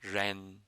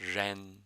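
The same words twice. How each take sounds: Both takes have the same delivery.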